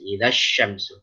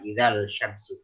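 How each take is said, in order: First: The L merges into the following S sound. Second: The L is pronounced clearly before the S. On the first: The speaker calls it right. "maka harus diidgham syamsi" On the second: The speaker calls it wrong. "Jadi bukan idzal syamsu"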